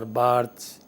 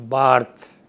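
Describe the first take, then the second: First: The name ends with an audible s sound. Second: The name ends without an s sound. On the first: The speaker calls it wrong. "not Barthes or Barths" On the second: The speaker calls it right. "the last syllable remains silent. So we pronounce it Barth"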